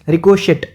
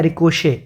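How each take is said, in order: First: The word ends with a clear t sound. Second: The word ends on a vowel, no t. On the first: The speaker calls it wrong. "देखने में ये लग रहा है रिकोशेट" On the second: The speaker calls it right. "इसको पढ़ा जाता है रिकोशे"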